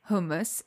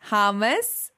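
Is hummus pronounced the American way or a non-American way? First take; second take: non-American; American. First: The word is said without an American pronunciation. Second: The word is said with an American pronunciation. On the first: The speaker calls it right. "thank you for saying hummus" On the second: The speaker calls it wrong. "not hummus, like American"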